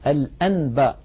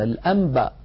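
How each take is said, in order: First: A clear n is heard before b. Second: The n before b sounds like m. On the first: The speaker calls it wrong. "ولا يقول الواحد الأنباء" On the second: The speaker calls it right.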